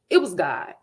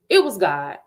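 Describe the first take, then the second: No difference in how they are said.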